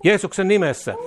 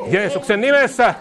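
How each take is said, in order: First: Said in the usual way. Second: Rising to a shout. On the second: Acted. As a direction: cry it out in triumph. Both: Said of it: "Jeesuksen nimessä repeated".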